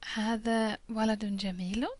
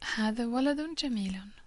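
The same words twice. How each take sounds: First: It is said with question intonation. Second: It is said with statement intonation.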